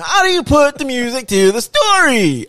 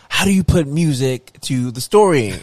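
First: High, loud put-on Cosby voice; hammed-up high Cosby-style question; Bill Cosby impression. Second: Bill Cosby impression. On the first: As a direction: ham up a squeaky Bill Cosby. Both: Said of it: "Sound like Bill Cosby".

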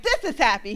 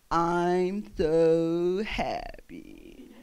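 First: Louder, upbeat correction; demonstrating happy. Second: Very slow, low, doleful drone; Droopy the dog. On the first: Child showing dad what happy is, upbeat and insistent. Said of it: "that's not happy". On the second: Dad mocking the cartoon dog, slow and gloomy. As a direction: drag it out mournfully, mocking happiness. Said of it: "used to mock him". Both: Retold or imitated.

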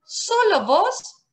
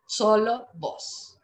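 First: "Solo" high and rising, slow; stress on solo. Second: "solo vos" falling, slow; falling stress. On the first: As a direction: lift "Solo" sharply up. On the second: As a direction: let "solo vos" fall down. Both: Shown as a demonstration. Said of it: "Vos informal".

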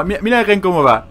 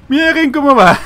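First: Raised, louder amused exclamation; amused excitement. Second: Very high, loud delighted squeal; hysterical amusement. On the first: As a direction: point out something ridiculous to viewers. Amused by glitching character. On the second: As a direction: shriek it on the verge of laughter. Repeats it, bursting into laughter. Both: Real, not acted.

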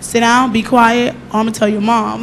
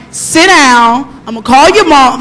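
First: Softer, calmer version; gentle. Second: Firm, stern order. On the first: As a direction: say it kindly, as the daughter showed. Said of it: "the way she told me". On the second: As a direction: lay down the law to the pupils. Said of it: "Like, I'm more stern". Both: Shown as a demonstration.

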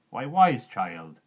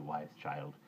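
First: Put-on slow, loud, drawn-out Why, wise child; surprised motherly call. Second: Tender. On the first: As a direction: stretch out wise child in loud gentle alarm. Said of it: "she said". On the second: Acted. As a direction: settle the words down gently. Juniper calming the girl.

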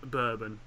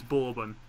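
First: "bourbon" as BUR-bun; rejected pronunciation. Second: "bourbon" as BOR-bun; approved pronunciation. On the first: Telling a friend what's wrong, "bourbon" as BUR-bun. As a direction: say "bourbon" with a BUR first syllable. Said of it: "not bourbon". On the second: Rubbing in Mum's verdict, "bourbon" as BOR-bun. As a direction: say "bourbon" with a BOR first syllable. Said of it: "told by your mum that it's". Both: Shown as a demonstration.

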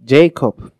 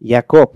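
First: Jacob as English "JAY-kop"; English pronunciation. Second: Jacob as "ya-KOP", opening on Y; Hebrew pronunciation. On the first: Teacher transliterating the name, English pronunciation. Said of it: "en inglés". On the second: Teacher giving the Hebrew name, Hebrew pronunciation. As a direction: say Jacob with a Y, stressed last. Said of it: "¿Cómo se dice en hebreo Jacob?". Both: Shown as a demonstration.

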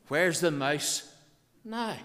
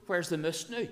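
First: MOUSE said with a full standard vowel, drawn out and loud; slow, raised "Where's the mouse now?" with standard MOUSE; standard English translation. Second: MOOSE for mouse, with a short Scots vowel, and NOW as "noo"; brisk, raised dialect line with "moose" and "noo"; broad Ulster Scots. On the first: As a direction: spell out "mouse" slowly for the listeners. Translating the dialect line slowly. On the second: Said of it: "speak Ulster Scotch". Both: Shown as a demonstration.

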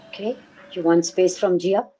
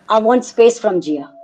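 First: Quieter, rising disbelieving repeat of his words; incredulous echo. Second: Said in the usual way. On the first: Retold or imitated. Mother echoes the boyfriend's request in quiet disbelief. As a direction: throw his words back as a stunned question. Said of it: "I said". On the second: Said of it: "He said, um".

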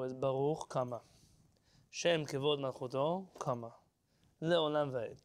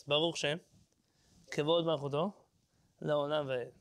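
First: Right pauses, Baruch set apart; correct phrasing. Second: "Baruch Shem" then "Kevod Malchuto" then "Le'olam Va'ed" grouped as three wrong chunks; wrong pauses after Shem and Malchuto; wrong phrasing. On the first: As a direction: pause after "Baruch" then "Shem Kevod Malchuto" as one phrase. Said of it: "The right way to do it". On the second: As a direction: split the verse after Shem as the common wrong way. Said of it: "they break up the pasuk into three parts". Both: Shown as a demonstration.

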